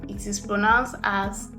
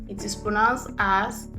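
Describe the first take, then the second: The two takes are said the same way.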